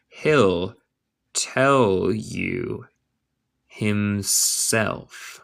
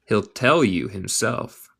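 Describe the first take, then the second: First: Slow, with gaps between words; word-by-word model. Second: Said in the usual way. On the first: Shown as a demonstration. Teacher modelling a line for English learners, word by word. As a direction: dictate it piece by piece.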